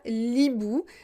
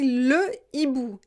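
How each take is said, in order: First: The article is elided onto the noun. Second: The article is said in full, without elision. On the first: The speaker calls it wrong. "et pas l'hibou" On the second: The speaker calls it right. "je dis le hibou"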